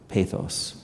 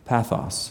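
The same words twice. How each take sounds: First: It is said with a contemporary English pronunciation. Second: It is said with a Koine Greek pronunciation. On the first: "the kind of contemporary English pronunciations" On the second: "both the Koine Greek and the kind of contemporary English pronunciations"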